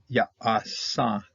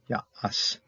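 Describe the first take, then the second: First: The word ends with a final third syllable. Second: The word stops after two syllables. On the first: This follows the written form with the final letter. The speaker calls it wrong. "They don't want ah, ya, asa" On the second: This follows the substitute reading without the final letter. The speaker calls it right. "They want ya, as"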